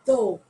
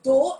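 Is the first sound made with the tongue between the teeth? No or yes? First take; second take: yes; no. First: The first sound has the tongue between the teeth. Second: The first sound is made without the tongue out. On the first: The speaker calls it right. "my tongue comes in between my teeth" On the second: The speaker calls it wrong. "it is not uh, though"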